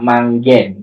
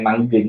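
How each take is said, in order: First: The last vowel is a clear, open 'e' sound. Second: The last vowel is a weak schwa sound. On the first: The speaker calls it right. "sebutan yang sebenarnya adalah ni adalah I Taling" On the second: The speaker calls it wrong. "bukan Manggen"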